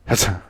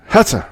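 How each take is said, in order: First: Said in the usual way. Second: Sharp, much higher shout of the name; loud call. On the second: Acted. Sudden call in the bar.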